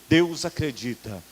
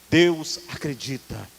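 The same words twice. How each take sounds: Both takes have the same delivery.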